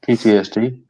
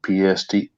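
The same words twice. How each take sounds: First: "P T S D" with all four letters; "P T S D" spelt out, T included; corrected abbreviation. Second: "P S D" said without the T; "P S D", letters P, S, D only; wrong abbreviation. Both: Real, not acted. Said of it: "P T S D, aye".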